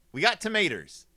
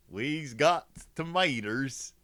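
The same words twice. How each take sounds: First: Said in the usual way. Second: Slow, drawn-out mock hillbilly. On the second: Clowning with hick grammar, then repeats.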